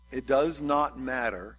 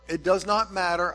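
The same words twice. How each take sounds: First: It is said more softly. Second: It is said at normal loudness.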